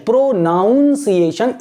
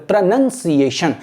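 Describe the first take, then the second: First: "pronunciation" with a NOUN in the middle, pro-NOUN-ciation; wrong pronunciation. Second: "pronunciation" with NUN in the middle, pro-nun-ciation; correct pronunciation. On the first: Teacher showing Hindi-medium students a common mistake, "pronunciation" mispronounced as pro-noun-ciation. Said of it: "is a wrong word". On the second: Teacher correcting the common mistake, "pronunciation" said properly as pro-nun-ciation. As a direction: say "pronunciation" as pruh-nun-see-ay-shun, no "noun" in it. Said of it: "ऐसे नहीं बोलते". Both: Shown as a demonstration.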